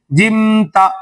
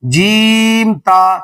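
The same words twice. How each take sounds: First: "جم تا" with clipped "جم"; mock error "جم تا"; wrong short jim. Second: Very slow "جیم تا", long ee in "جیم"; teacher models "جیم تا"; correct jeem ta. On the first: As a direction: imitate the kids' short "جم تا". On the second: Shown as a demonstration. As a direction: draw out "جیم تا" carefully. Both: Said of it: "جم تا نہیں کہنا ہے".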